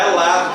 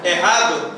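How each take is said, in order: First: "lado" with an L for the R, like Cebolinha; "é lado" said the Cebolinha way, L instead of R; Cebolinha's lisp. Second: Said in the usual way. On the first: Retold or imitated. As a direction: swap the R in "lado" for an L, childlike. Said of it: "Ele fala é lado". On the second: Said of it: "Quem fala errado somos nós".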